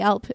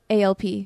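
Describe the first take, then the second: First: It is pronounced as a single word. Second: It is spelled out as three separate letters. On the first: The speaker calls it wrong. "I don't say ALP" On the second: The speaker calls it right. "I just say ALP. It's not one word"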